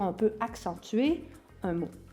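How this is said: The stress is on the word accentuer.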